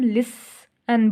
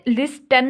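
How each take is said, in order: First: No t sound is heard in the middle. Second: A t sound is pronounced in the middle. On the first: The speaker calls it right. "हम लिसन बोलते हैं" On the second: The speaker calls it wrong. "लिस्टन नहीं बोलते"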